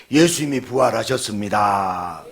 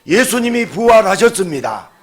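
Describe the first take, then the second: First: Said in the usual way. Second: Loud, high proclamation with 예수님이 punched; preaching proclamation. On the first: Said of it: "옆 사람에게". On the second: Acted. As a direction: ring out 예수님이 like a declaration. (예수님이를 힘주어 외치는 선포)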